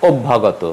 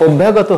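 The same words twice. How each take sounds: First: অভ্যাগত said the right way; অভ্যাগত clearly and correctly pronounced; correct pronunciation. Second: অভ্যাগত said the mistaken way; অভ্যাগত as learners often mispronounce it; wrong pronunciation. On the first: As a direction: model অভ্যাগত for students. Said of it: "উচ্চারণ হবে". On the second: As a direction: read অভ্যাগত the naive way. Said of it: "হবে না". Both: Shown as a demonstration.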